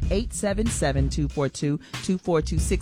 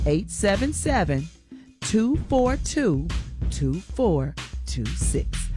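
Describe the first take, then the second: First: The number is said at a fast pace. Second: The number is said at a slow pace.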